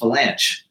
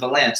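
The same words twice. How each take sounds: First: The name ends with a 'ch' as in chess. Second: The name ends without a clear 'ch' sound. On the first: The speaker calls it right. "It's Vilanch. ... You have to pronounce the C-H" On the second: The speaker calls it wrong. "his name isn't Vilanch"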